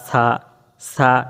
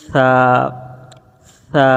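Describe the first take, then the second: First: The consonant is a sharp hissing s sound. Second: The consonant is a soft breathy th sound. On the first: The speaker calls it wrong. "উচ্চারণ করে এইভাবে" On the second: The speaker calls it right. "নরম বাতাস আসবে এবং সামনের দাঁতের সাথে জিহ্বার গোড়া লাগবে"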